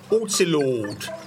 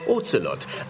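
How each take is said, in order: First: The first O is long. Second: The first O is short.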